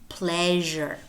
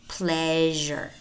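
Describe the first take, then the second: No difference in how they are said.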